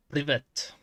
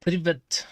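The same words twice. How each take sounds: First: Said in the usual way. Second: "Privet" called out higher and louder, ending in a fall; loud Russian try. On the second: Shown as a demonstration. Practising Russian for the game, loud "Privet". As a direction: announce "Privet" loudly to the game. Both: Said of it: "I might play Kathy Rain".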